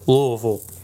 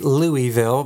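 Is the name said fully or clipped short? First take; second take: clipped; fully. First: The name is clipped short, the local Kentucky way. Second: The name is said fully, the outsider's way.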